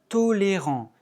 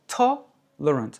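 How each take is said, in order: First: Every vowel is pronounced fully. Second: Only the first vowel is full; others are reduced. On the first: "en français, on prononce toutes les voyelles" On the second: "L'accent sur la première, toutes les autres sont réduites"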